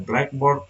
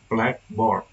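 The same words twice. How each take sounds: First: The stress falls on the second part, board. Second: The stress falls on the first part, black. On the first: "stress often falls onto the noun" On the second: A tool used for writing in class. "the first word usually gets the main stress"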